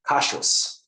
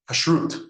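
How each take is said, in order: First: It is said in an Ashkenazic accent. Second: It is said in a modern Israeli accent. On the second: "a conservative rabbi who learns modern Hebrew"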